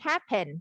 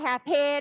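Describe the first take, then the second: First: It is said with English pronunciation. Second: It is said with Thai-style pronunciation. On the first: The speaker calls it right. "แต่จริงๆมันคือ" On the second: The speaker calls it wrong. "แต่เราอ่านแบบไทยๆเราก็"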